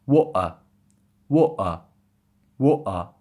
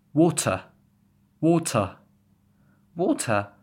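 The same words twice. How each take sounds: First: "water" as wo'uh, T swapped for a throat catch; louder "water" with a glottal stop for the T. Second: Said in the usual way. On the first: Shown as a demonstration. Teacher demonstrating British accent to learners, glottal T in "water". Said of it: "it would pronounce like this". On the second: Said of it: "If you want to glottal that T".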